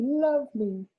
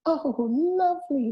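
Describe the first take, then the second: First: High squeaky repeat of the word lovely; squeaky mice echoing. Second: Very high, slow squeak of delight; squeaky mice. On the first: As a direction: squeak lovely once more like happy mice. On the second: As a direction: squeak it like happy little mice. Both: A narrator's reading. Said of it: "they squeaked".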